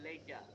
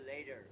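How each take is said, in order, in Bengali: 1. এটা ব্রিটিশ উচ্চারণে বলা হয়। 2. এটা আমেরিকান উচ্চারণে বলা হয়। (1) "ব্রিটিশরা বলবে later" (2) "আমেরিকানরা বলবে later"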